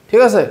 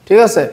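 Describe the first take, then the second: No difference in how they are said.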